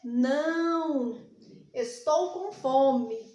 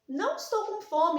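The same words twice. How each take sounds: First: There is a pause right after não. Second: It is said without a pause after não. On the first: The speaker answers no to something else and is hungry. "Quando eu coloco a vírgula, eu já afirmo" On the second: The speaker is not hungry. "quando eu retiro a vírgula"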